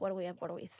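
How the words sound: It is spoken in a Spanish accent. "I can even do it with like a Spanish one"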